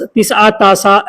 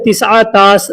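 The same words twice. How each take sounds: First: तिसआ तासा with a final long aa; aa-ending variant. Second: तिसआ तास ending on s; basic s ending. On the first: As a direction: add an aa after the last s in तिसआ तासा. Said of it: "ऐसे वो लोग बोलते हैं". (अंत में आ वाला तिसआ तासा) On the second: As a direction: close तिसआ तास with no vowel after s. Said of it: "इसको बोलते हैं". (अंत में स वाला तिसआ तास) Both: Shown as a demonstration.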